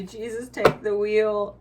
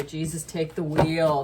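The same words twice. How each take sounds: First: Loud, slow hammed-up plea; mock dramatic surrender. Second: Said in the usual way. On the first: Quoting the surrender energy, loud slow hammed-up plea. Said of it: "That's really literally the energy". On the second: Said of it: "just say".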